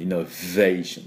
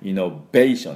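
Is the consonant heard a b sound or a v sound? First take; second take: v sound; b sound. First: The consonant is a v sound, lip on teeth. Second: The consonant is a b sound with closed lips. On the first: The speaker calls it right. "V の音がポイントです" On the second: The speaker calls it wrong. "イノベーションって言わない"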